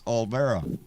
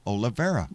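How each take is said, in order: First: The name has no vowel after the L. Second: The name has an extra vowel after the L. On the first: The speaker calls it right. "It's not Ole because there's no I" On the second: The speaker calls it wrong. "I always say Martha Olivera"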